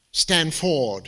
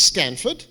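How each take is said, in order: First: Stanford said as stan-FORD; stress on second syllable. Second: Said in the usual way. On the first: Shown as a demonstration. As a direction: put the emphasis on the FORD of Stanford. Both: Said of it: "Emphasis on the wrong syllable".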